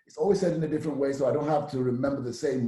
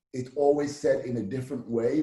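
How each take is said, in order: First: Fast, rushed repeat of the line; quicker take. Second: Said in the usual way. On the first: Shown as a demonstration. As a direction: say it again, faster.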